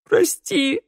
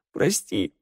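First: High, louder wailing sob; sobbing cry. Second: A whimpered apology; sobbing. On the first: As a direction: wail the apology. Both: A narrator's reading. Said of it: "рыдал Раду".

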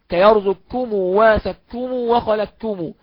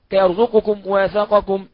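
First: Slow كيرزقكم وسكم وخلقكم, qaf merged into kaf; with assimilation. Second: Slow كيرزقكم وسقكم with the qaf clearly said; unmerged form. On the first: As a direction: merge the ق fully into the ك. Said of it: "بالإدغام". (قراءة بالإدغام الكامل ببطء) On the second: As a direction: keep the ق in وسقكم distinct. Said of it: "طبعًا هي موجودة في المتن". (نطق القاف ظاهرة دون إدغام) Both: Shown as a demonstration.

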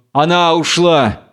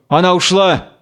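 First: «Она ушла» as a settled statement, falling; stating. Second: «Она ушла» with a raised questioning tune. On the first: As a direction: confirm «Она ушла», letting «ушла» drop. Samson's answer to the question. (утвердительно: «Она ушла», с понижением на «ушла») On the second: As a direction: ask «Она ушла» uncertainly, pitch up on «ушла». Goliath asks, Samson confirms. (вопросительно: «Она ушла», с подъёмом на «ушла») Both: Acted.

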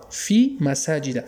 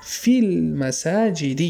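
First: مساجد said slowly with a final "-a"; fatha ending. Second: المساجد stretched slowly to a final "-i"; kasra ending. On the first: Teacher showing the word without alif-lam, مساجد ending in "-a". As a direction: say مساجد as "masaajida", stretched out. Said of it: "الف لام نداره". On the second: Teacher showing what alif-lam changes, المساجد ending in "-i". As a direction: say "fil-masaajidi" slowly for فی المساجد. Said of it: "اما الف لام که گرفت چی شد؟". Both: Shown as a demonstration.

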